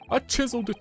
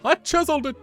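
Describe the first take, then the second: First: It is said in his normal voice. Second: It is said in a Luigi impression.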